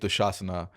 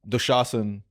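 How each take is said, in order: First: The name ends with a final a vowel. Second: The name ends on the consonant n. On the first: This is the form used on stage. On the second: This is the usual Hindi form.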